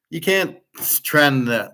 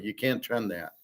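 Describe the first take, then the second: First: "can't" jumps high and punched, then "trend that" firm; emphatic can't. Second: "You can't trend that" dropped much softer, falling away; muttered repeat. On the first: Ranting at gold chart analysts, "can't" punched high. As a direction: hit "can't" hard and high in "You can't trend that". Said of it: "repeats the phrase, first time emphatic". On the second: Repeating his point to himself, dropped softer. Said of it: "repeats the phrase, second time dropped". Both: Real, not acted.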